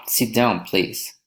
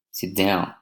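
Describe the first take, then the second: First: "Sit down, please" as a request, "please" lifting; rising request intonation. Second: "Sit down" with the pitch dropping on "down"; a command, let "down" fall to a close; falling intonation. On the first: Teacher models a polite request, rising on "please". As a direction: soften the command, tipping "please" upward. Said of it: "rising intonation". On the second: Teacher models a command, falling on "down". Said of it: "falling intonation". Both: Shown as a demonstration.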